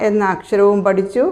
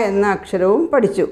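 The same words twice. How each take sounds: The two takes are said the same way.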